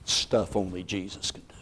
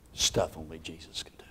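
First: Soft emphasis. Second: Breathy whisper, awed; awed whisper of Stuff only Jesus can do. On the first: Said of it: "repeated take". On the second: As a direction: whisper it to the room. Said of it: "repeated as whisper". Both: Shown as a demonstration.

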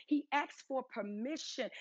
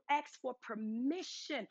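First: Said in the usual way. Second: Each word drawn out slowly; slowed down. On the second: Shown as a demonstration. Preacher slowing down so the congregation won't read too fast. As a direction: let the congregation catch every word. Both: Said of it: "don't read that too fast".

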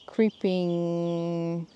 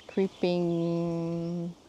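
No difference in how they are said.

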